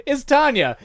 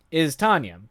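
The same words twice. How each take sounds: First: Playful reveal. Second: Said in the usual way. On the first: Acted. Introducing the heart-eating vampire.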